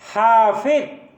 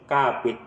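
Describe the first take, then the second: First: It is pronounced the standard Arabic way. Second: It is pronounced with a Javanese accent.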